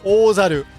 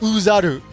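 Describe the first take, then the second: First: The word begins with an 'oh' vowel sound. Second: The word begins with an 'oo' vowel sound. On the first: The speaker calls it right. "it's Ozaru" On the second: The speaker calls it wrong. "it's not pronounced Uzaru"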